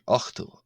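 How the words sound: The middle consonant is a throaty ch sound. This is another dialect's form. "another dialectal here, ochto, hence uh, C H"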